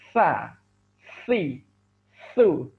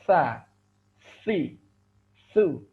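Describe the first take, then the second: First: The tongue sticks out and breath barely flows. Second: The tongue touches the teeth and breath flows. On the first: The speaker calls it wrong. "ujung lidahnya keluar terlalu uh, luar ... sehingga nafasnya kurang mengalir" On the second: The speaker calls it right. "dan ada nafas yang mengalir"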